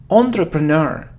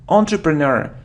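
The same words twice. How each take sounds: No difference in how they are said.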